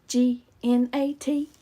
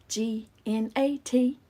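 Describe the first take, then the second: The two takes are said the same way.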